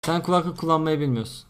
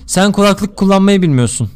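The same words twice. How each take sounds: First: Said in the usual way. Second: Loud, emphatic joke delivery; performed repeat. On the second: Shown as a demonstration. Streamer redoing the joke on request, loud delivery. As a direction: project it clearly as a replayed gag. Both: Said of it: "bir daha yapsana".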